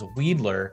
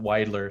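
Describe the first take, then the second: First: The first syllable sounds like the word weed. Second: The first syllable does not sound like weed. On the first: The speaker calls it wrong. "gets mispronounced as Weedler" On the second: The speaker calls it right. "It is in fact Weidler"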